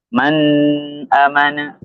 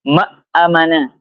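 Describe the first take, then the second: First: The n is nasalized and held long. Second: The n is dropped and the next sound doubled. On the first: "didengungkan, ditahan" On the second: "nunnya ini sama sekali hilang"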